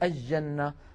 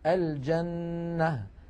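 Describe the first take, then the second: First: The L blends into a doubled J sound. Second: The L is clearly pronounced before the J. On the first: The speaker calls it wrong. "هذا لا يصح" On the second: The speaker calls it right. "الفصحى"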